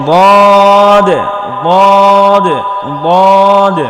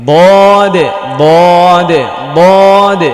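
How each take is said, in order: Both takes have the same delivery.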